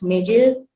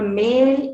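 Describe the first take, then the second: First: It is said with an added y sound. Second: It is said without an added y sound.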